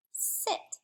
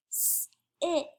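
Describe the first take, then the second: First: Said in the usual way. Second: "Sit" split as a long S, pause, then IT; segmented word. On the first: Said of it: "the middle of sit". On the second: Shown as a demonstration. Teacher sounding out the next word, segmented. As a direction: hold the S of "Sit", then add IT separately. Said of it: "let's segment that".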